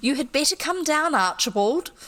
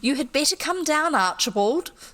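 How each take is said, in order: First: It is read in a different character's voice. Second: The same.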